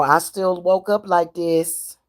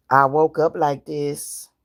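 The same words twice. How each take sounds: First: Slow, with "up" stressed. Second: Slow, lower, with "woke" stressed. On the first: Telling slanderers off, slow with "up" stressed. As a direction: lean on "up" slowly. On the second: Repeating it to slanderers, "woke" stressed slowly. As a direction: hit "woke" slow and low. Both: Shown as a demonstration.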